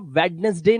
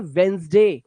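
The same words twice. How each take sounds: First: वेडनेसडे with the d sounded, wed-nes-day; three syllables in वेडनेसडे; wrong spelling pronunciation. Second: वेंसडे as WENZ-day, silent d; two syllables in वेंसडे; teacher's model of Wednesday; correct pronunciation. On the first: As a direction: read वेडनेसडे as spelt. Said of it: "वेडनेसडे नहीं बोलते". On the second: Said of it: "उसे बोलते हैं वेंसडे". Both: Shown as a demonstration.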